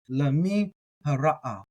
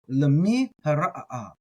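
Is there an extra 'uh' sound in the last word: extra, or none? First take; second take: none; extra. First: The last word has no extra 'uh' sound. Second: The last word has an extra 'uh' sound. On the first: "Others are going to do it" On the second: "I like to get that extra uh in there. That's how I'm going to do it"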